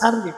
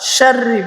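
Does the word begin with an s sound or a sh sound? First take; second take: s; sh. First: The first consonant is a plain s sound. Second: The first consonant is a sh sound. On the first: The speaker calls it wrong. "এটা উচ্চারণ করতে পারে না সাররি সাররি বলে ছোট শিন করে" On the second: The speaker calls it right. "আমরা শাররি বলবো"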